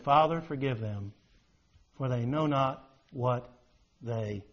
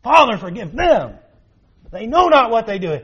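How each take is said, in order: First: Low and soft, fading to almost nothing; hushed quote of Jesus. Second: Raised high and loud, pleading; fervent quote of Jesus. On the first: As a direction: murmur it as a dying man's plea. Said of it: "He said". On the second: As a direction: cry it out as Christ on the cross, full force. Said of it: "Jesus prayed for those who are hardened". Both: Retold or imitated.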